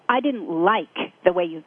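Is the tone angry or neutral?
angry. It is said in a judgmental, angry tone. It carries judgment and will cause a fight. The speaker calls it wrong. "totally different inflection, totally different meaning"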